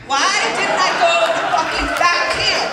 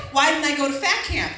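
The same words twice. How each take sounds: First: Exasperated outcry. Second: Said in the usual way. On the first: Retold or imitated. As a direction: wail the question in loud regret. Escalated repeat of her lament.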